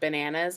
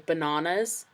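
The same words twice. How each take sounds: First: It is said in her ordinary, plain accent. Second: It is said with a British-sounding accent. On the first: "instead of saying bananas" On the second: "I say bananas"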